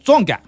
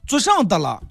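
First: It is squeezed quickly into two syllables. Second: All four syllables are said fully and distinctly.

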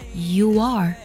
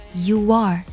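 First: A w-like glide links the two words. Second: The same.

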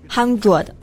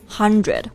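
First: The middle lacks a clear 'dr' sound. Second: The middle has a clear 'dr' sound. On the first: The speaker calls it wrong. "不要读成这个 hundred" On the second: The speaker calls it right. "这里的字母组合 DR 发 dr 的这个音"

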